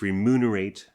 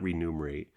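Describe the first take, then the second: First: The word begins with re-mun, m before n. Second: The word begins with re-num, n before m. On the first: The speaker calls it right. "but it's remunerate" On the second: The speaker calls it wrong. "It's not remunerate"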